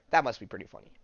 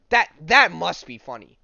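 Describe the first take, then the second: First: Quick, chuckling repeat; chuckling afterthought; laughing. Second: Loud, high laughing outburst; loud delighted exclaim; loud amused exclaim. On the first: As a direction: say it through a laugh. Laughing at the scene. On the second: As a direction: burst out at how funny it is. Amused at the comic scene. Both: Real, not acted.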